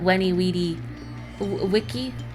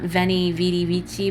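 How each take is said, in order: First: Each word begins with a W sound. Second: Each word begins with a V sound. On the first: The speaker calls it right. "it's with a w sound" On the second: The speaker calls it wrong. "not veni vidi vici"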